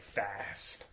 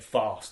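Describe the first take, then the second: First: It is said in an American accent. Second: It is said in a British accent.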